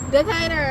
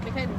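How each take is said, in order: First: It is said loudly and proudly. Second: It is said quietly and flatly.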